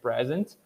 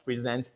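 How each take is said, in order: First: "present" as PREZ-ent, stress on the first syllable. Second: "present" as pre-ZENT, stress on the last syllable; second-syllable stress. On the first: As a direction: say the noun "present", stressing the start. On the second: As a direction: say the verb "present", stressing the end. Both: Shown as a demonstration. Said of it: "Word stress is what's going to change".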